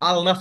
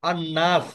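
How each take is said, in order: First: The article's l is clearly sounded before n. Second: The article's l merges into the n sound. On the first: The speaker calls it wrong. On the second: The speaker calls it right.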